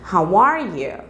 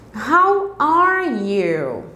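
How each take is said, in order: First: It is said faster, with words running together. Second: It is said at a normal, careful pace.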